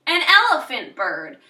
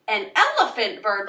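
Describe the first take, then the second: First: Said in the usual way. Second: Amazed, questioning take on the line; a stunned "elephant bird?"; surprised. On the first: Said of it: "Don't just say". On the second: Shown as a demonstration. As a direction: react with real surprise. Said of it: "Like, you're surprised".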